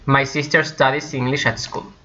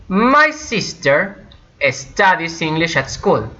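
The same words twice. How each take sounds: First: Said in the usual way. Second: MY SISTER high and drawn out, then a pause; slow, chunked example with a raised start; slow model sentence. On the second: Shown as a demonstration. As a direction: present the example slowly to learners.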